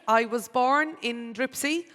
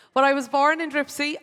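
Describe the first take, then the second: First: Said in the usual way. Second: Louder, higher insistence on "born in Dripsey"; firmly reclaim "Dripsey" as the birthplace; insisting on Dripsey. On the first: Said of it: "Well, I was born in the hospital in Cork". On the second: Real, not acted. MC correcting herself about her birthplace, firmly insisting. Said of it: "to be very specific now about it".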